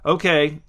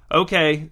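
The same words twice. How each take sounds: First: "Okay" inflected vaguely, meaning left unclear; noncommittal inflection. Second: "Okay" said louder, as a firm yes; inflected like yes. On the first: Sheena answers Donovan's rollerblading advice, "Okay" inflected noncommittally. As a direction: say "Okay" as if unsure what it means. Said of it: "inflecting it like she didn't even know what". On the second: Sheena agrees to Donovan's promise, "Okay" inflected like yes. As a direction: make "Okay" land like a one-word yes. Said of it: "trying to inflect it like a yes". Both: A narrator's reading.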